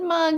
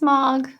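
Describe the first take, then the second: First: The vowel sounds like the one in 'mug'. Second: The vowel sounds like the one in 'log'. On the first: The speaker calls it wrong. "not Mug" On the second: The speaker calls it right. "it's Mog. With an O"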